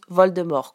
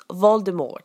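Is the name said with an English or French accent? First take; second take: French; English. First: It is said with a French accent. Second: It is said with an English accent.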